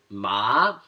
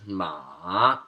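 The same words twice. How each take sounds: First: The pitch rises from low to high. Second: The pitch drops and then rises again. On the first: It means numb. "The second tone goes up, so you're increasing the pitch" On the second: It means horse. "the third tone is going down and then back up"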